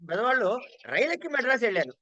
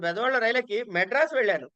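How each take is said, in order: First: The word for boarding the train is stressed. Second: The city name Madras is stressed. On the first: The journey was by train, not by car or cycle. "రైలుకి importance అండి" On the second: The destination was reached without stopping anywhere earlier. "అక్కడ importance"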